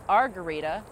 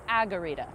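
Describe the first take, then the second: First: An R sound follows the first vowel. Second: No R sound follows the first vowel. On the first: The speaker calls it wrong. "I mispronounced it for about a year. I thought it was Argarita, like margarita without the M" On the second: The speaker calls it right. "It is Agarita, not Argarita"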